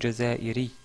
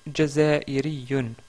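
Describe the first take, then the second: First: The word stops short without the -un ending. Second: The word ends with the full -un ending.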